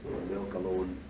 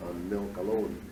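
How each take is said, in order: Both takes have the same delivery.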